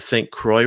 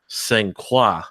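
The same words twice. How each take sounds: First: Croix is said with an English-style pronunciation. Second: Croix is said with a French-style pronunciation. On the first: This is how local people say it. "natives would call it the Saint Croix River" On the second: This is how French speakers say it. "our French speaking friends ... say it's pronounced Saint Croix"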